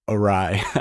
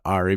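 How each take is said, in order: First: It is said as two syllables, 'a-rye'. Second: It is said like the name 'Ari'. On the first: The speaker calls it right. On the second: The speaker calls it wrong.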